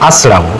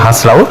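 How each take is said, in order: First: The word starts with a vowel, no h. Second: The word starts with an h sound. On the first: The speaker calls it right. "এটা হবে কি আসরাও" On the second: The speaker calls it wrong. "আমরা অনেকেই বলি হাসরাও"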